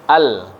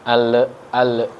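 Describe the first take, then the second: First: The L is stopped cleanly without release. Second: The L is released with a bouncing echo. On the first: The speaker calls it right. "Jangan sampai dipantulkan" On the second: The speaker calls it wrong. "Kalau dilanjutin kan jadinya mantul ya"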